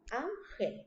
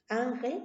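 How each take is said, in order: First: "Ángel" split as Án, gel; syllable by syllable. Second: Said in the usual way. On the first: Shown as a demonstration. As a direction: softly count out the two syllables of "Ángel". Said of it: "es una palabra de dos sílabas".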